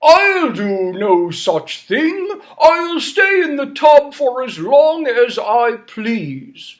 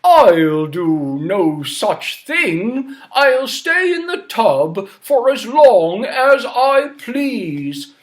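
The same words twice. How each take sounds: First: Slow, louder stubborn refusal; stubborn king refusing to leave the tub. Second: Slow stubborn refusal; stubborn king refusing again. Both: Acted. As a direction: refuse like a spoilt old king. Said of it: "And King Bidgood said".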